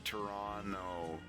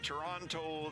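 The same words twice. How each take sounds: First: The second T is silent. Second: Both T sounds are pronounced hard. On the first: "Nobody says the second T in Toronto... like silence" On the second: "I do the two hard T's there, bud"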